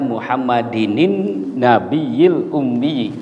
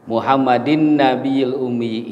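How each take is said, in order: First: An extra 'nin' sound links the two words. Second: No extra 'n' sound links the two words. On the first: The speaker calls it right. "Yang benarnya" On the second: The speaker calls it wrong. "ini itu contoh yang salah"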